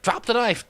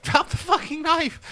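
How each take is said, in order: First: High loud shouted command; mock police order. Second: Even higher shrieked command with a laugh; mock police yell, laughing. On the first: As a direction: bark the order at the suspect. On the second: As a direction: scream it, losing patience, laughing. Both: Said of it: "that police are like".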